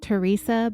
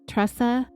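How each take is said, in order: First: The name is said with three syllables. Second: The name is said with two syllables. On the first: This is how someone else says the name. "I think Sherry pronounces it Teresa" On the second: This matches how the name is spelled. "it's T R E S A, Tressa. I'm going to say Tressa"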